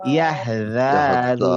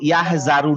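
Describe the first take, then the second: First: The consonant is a soft 'th' sound. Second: The consonant is a 'z' sound. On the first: The speaker calls it right. "জিভটা বের করে।" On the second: The speaker calls it wrong. "আমরা যেন ইয়াহ জারু না বলি"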